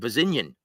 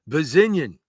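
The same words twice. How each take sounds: First: The name is said in his ordinary voice. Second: The name is said in a put-on imitation voice.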